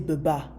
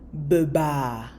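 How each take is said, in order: First: The final vowel is short, not stretched. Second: The final vowel is stretched out long. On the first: The speaker calls it wrong. "you don't say beba" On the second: The speaker calls it right. "you have to stretch the letter a little bit"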